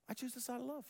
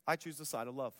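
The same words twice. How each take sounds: First: Quiet lifted repeat of love; softer, tender repeat. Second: Said in the usual way. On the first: Shown as a demonstration. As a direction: pastor voicing Jesus, softer the second time.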